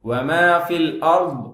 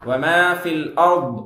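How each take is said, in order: Both takes have the same delivery.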